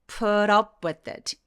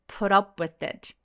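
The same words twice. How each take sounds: First: The words run together smoothly as one unit. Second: The words run together smoothly as one unit.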